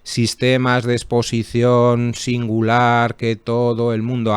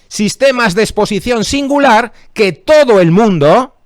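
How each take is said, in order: First: It runs straight through without a pause. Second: It is broken up by a pause. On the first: The speaker calls it wrong. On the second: The speaker calls it right.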